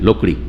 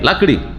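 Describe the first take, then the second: First: The first vowel is rounded, like 'o'. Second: The first vowel is open, like 'a'. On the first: This is the Bengali way of saying it. "Bangla হচ্ছে গোল করে বলা" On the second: This is the Urdu way of saying it. "উর্দুরা লাকড়ি বলবে"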